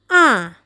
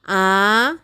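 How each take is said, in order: First: The pitch falls from high. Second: The pitch rises throughout. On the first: "nadanya dari tinggi turun" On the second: "Nada kedua bunyinya naik"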